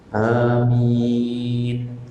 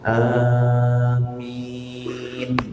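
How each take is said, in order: First: The first vowel is short, the second long. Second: The first vowel is held longer than normal. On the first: "A-nya dua harokat saja. Min-nya panjang tidak apa-apa" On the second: "agak panjang juga, hanya lebih dari dua harokat"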